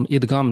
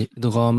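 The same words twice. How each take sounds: First: ادغام with a plain hard g, idgaam; ادغام as idgaam, without the Arabic ghain; everyday non-Arabic pronunciation. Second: ادغام with an Arabic ghain, not a hard g; careful Arabic ادغام, throaty gh; Arabic pronunciation. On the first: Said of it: "نہیں". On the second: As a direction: say ادغام the Arabic way, long ghaam. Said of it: "Arabic میں کیا ہے اس کا pronunciation". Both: Shown as a demonstration.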